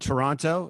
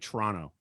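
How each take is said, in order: First: The second T is clearly pronounced. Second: The second T is dropped. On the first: It is said for listeners from outside the country. "I pronounced the second T because I know there's an American audience" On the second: It is how locals say it. "Local as a local, you don't pronounce that second T"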